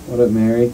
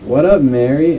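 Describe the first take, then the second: First: The greeting is said in a plain tone. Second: The greeting is said in an exaggerated tone.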